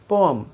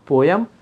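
First: The second vowel sounds like 'uh'. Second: The second vowel sounds like 'yuh'. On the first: The speaker calls it right. "Simple पोअम" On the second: The speaker calls it wrong. "This is not पोयम"

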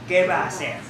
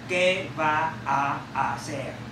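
First: The a sounds merge into one long a. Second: Each a sound is pronounced separately. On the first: The speaker calls it right. "nó đọc thành một cái âm a dài" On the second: The speaker calls it wrong. "chứ không có ai đọc như thế này"

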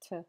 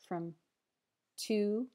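First: The word has a weak schwa vowel. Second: The word has a full, clear vowel.

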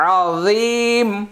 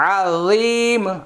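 First: The word is said as 'azeem' with a long end. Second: The same.

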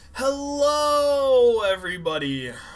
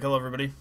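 First: It is said with high, excited energy. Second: It is said in a relaxed, low-energy way.

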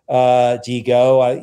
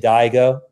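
First: The name is said with Spanish-style vowels. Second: The name is said with anglicized American vowels. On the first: This is the intended, internationally shared pronunciation. The speaker calls it right. "The pronunciation that we bring to it is more international" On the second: This is how locals unfamiliar with the name read it. The speaker calls it wrong. "Where my parents live in Virginia, they're likely to say Digo"

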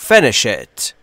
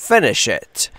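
No difference in how they are said.

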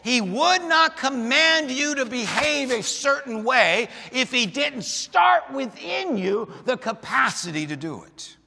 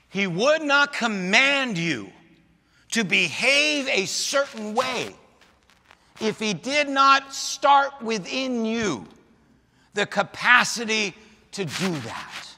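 First: It is said at a faster pace. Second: It is said at a slower pace.

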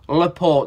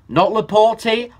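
First: The name ends without an extra vowel sound. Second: The name ends with an extra vowel sound. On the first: The speaker calls it right. "there's no E" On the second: The speaker calls it wrong. "It sounds better with an E"

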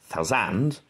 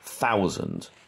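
First: The stress moves to a different syllable. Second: The word keeps its usual stress pattern. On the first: The speaker calls it wrong. "I can't change it to thousand" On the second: The speaker calls it right. "The word thousand"

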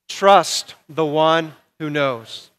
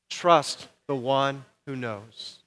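First: It is said forcefully, with strong conviction. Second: It is said casually, without much force.

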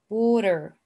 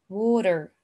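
The two takes are said the same way.

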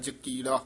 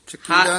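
First: The word begins with a voiced j sound. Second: The word begins with a voiceless ch sound. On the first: The speaker calls it right. "ਜਕੀੜਾ ਜੱਜੇ ਨਾਲ" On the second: The speaker calls it wrong. "ਚਕੀੜਾ ਨਹੀਂ"

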